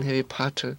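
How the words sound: It is said in a British accent.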